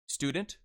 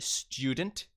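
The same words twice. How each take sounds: First: It is said in an American accent. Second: It is said in a British accent.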